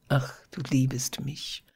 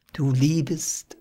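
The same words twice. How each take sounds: First: Softer, whispered wonder; hushed whisper. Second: Said in the usual way. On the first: A narrator's reading. Daphnis marvelling that Phyllis loves him, whispering. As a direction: whisper it as if hardly believing. Lover's tender confession.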